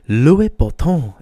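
The name is pronounced the continental European way.

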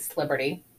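The name is squeezed into a short, clipped form. "we just say Sliberty"

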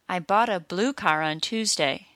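Blue is stressed and car is said quickly. "blue is stressed, but car isn't, so car is said quickly"

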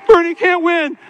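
It is said as a flat, confident statement. They claim Bernie will lose. "that's why they say"

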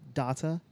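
It is said with a British pronunciation. "you're from the UK"

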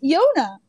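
The name is said with an American vowel. "in American, I think it's Yona"

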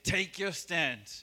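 It is said firmly and with conviction.

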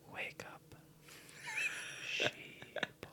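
It is said in a soft, whispery ASMR voice.

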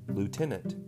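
The word is pronounced the American way. "in American they say lieutenant"

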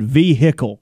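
The word is said in a Southern accent. "You can also tell Joey is a good old Southern boy"

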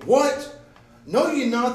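It is said loudly, in a scolding tone.

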